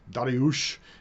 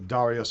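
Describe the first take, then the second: First: The name is said in a Persian-style form. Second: The name is said in its usual anglicized form.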